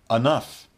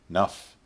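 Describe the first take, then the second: First: It is said in a somewhat reduced form. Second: It is said in its most reduced form.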